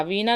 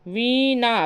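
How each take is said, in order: First: वीणा with a hard retroflex ṇ; correct form. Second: वीणा with dental n, "veenaa"; plain n in वीणा; wrong form. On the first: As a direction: curl the tongue for "veeṇḍaa", वीणा. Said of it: "बल्कि वीणा होता है". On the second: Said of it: "वीणा नहीं होता". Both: Shown as a demonstration.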